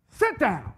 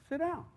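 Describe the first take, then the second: First: Loud, sharp order to sit; stern, forceful command. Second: Soft, easy request; quiet, inviting tone; gentle invitation. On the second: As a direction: offer it gently, without any force. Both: Shown as a demonstration. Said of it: "because of the tone of my voice".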